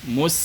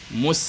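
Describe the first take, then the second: First: The s sound is thin and light. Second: The s sound is thin and light.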